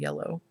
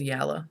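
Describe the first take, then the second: First: The word ends with an oh sound. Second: The word ends with an uh sound. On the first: "instead of yellow" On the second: "he says yalla instead of yellow"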